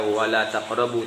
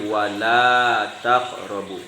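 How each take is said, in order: First: The vowel in 'la' is short. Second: The vowel in 'la' is held long. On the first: The speaker calls it wrong. "jangan dibaca" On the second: The speaker calls it right. "tapi ... wajib kita panjangkan satu alif"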